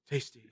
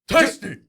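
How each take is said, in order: First: It is said quietly and flatly. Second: It is yelled loudly.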